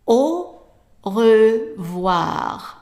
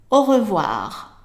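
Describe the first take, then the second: First: It is said at a slower pace. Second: It is said at a faster pace.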